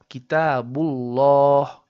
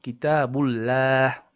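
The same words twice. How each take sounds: First: The L in Allah sounds heavy and full-mouthed. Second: The L in Allah sounds flat and light. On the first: The speaker calls it right. "Another example is" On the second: The speaker calls it wrong. "and not"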